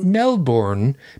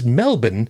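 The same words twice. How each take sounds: First: It is pronounced the way it is spelled. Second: It is pronounced the way locals say it. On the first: The speaker calls it wrong. "because that's the way that it's spelled" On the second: The speaker calls it right. "because that's the way that we say it"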